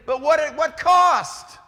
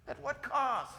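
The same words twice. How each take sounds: First: Loud, slow, high-pitched challenge with weight on cost; booming question. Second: Much softer repeat, cost falling away; soft echo. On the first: Preacher challenging students on debt, slow and booming. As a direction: hammer cost at the end. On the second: Preacher echoing his question to students, hushed. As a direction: drop to a near hush on cost. Repeated softly after loud take. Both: Acted.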